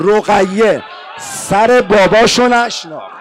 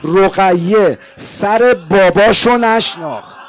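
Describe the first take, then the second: First: Slow emphatic cry. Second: Slow emphasis. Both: Shown as a demonstration.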